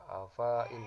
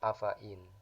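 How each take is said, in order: First: The vowel after the f is long. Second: The vowel after the f is short. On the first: The speaker calls it wrong. "Tidak dibaca" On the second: The speaker calls it right. "fa-nya dibaca pendek"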